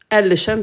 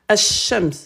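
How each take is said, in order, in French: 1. Le L de l'article se prononce clairement. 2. Le L se fond dans un son sh doublé. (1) "c'est faux" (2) "On dit ash-shams"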